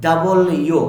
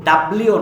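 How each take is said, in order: First: ডাবল ইউ as two full words; correct W. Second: ডাব্লিউ run together as one word; wrong W. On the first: Teacher modelling the letter W, two clear words. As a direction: separate ডাবল from ইউ, loud. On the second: Teacher warning learners, wrong W. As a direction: squash it into ডাব্লিউ, loud. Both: Shown as a demonstration. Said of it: "ডাব্লিউ না".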